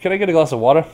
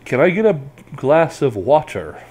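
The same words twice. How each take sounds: First: The final R of water is cut off. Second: The final R of water is pronounced clearly. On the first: "in America you'll hear" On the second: "they'll pronounce the R very clearly"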